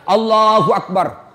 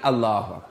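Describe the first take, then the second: First: It is said with far too much energy. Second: It is said weakly, without any energy.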